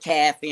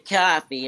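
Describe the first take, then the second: First: It is said in a New York accent. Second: It is said in a southern US accent. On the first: "New York says caffee" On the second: "we say coffee"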